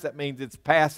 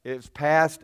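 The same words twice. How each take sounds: First: "past" leaned on, said firm and falling; stress on past. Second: Short "It's past", "past" punched and final; stress on past. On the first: Preacher to congregation, stressing "past". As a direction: hit the word "past" hard at the end. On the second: Preacher to congregation, hammering "past" home. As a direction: land "past" with a firm fall. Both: Shown as a demonstration. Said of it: "let me just emphasize that word is past".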